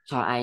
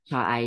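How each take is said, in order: The two takes are said the same way.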